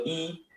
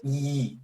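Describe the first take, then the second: First: Said in the usual way. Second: "I" drawn out with a buzzing glide; vibrating J sound. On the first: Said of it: "la I normal". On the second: Shown as a demonstration. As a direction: hold "I" and make it vibrate. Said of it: "y la J es". ("I" alargada y vibrada, sonido de J)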